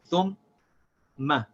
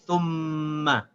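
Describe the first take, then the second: First: A short break separates the two syllables. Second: The syllables run together with no break. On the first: The speaker calls it wrong. "There's a break between the two" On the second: The speaker calls it right. "without stopping the sound of the meme"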